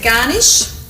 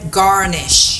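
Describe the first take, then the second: First: It is said in an Australian accent. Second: It is said in an American accent. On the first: "You could all say it like an Aussie" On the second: "as the Americans say"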